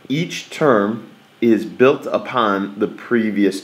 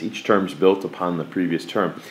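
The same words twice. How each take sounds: First: Slow and deliberate, leaning on built and previous; teacher stressing previous. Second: Softer repeat that lands on previous; quiet teacher repeat stressing previous. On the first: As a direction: spell it out slowly for the class. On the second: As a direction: say it again, quieter, weight on previous. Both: Shown as a demonstration. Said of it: "we really wanna emphasize the word previous".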